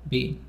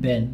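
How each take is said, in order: First: The word is said in a British accent. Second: The word is said in an American accent.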